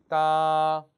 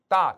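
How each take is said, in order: First: Long, loud 따 held level; first tone. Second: Short 따 cut off, pitch not held; wrong short first tone. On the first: Teacher correcting learners, drawn-out level 따. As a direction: sustain 따 on one even pitch. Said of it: "일성". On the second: Teacher showing a mistake, abrupt short 따. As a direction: cut 따 off early. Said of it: "그러면 안 되죠". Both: Shown as a demonstration.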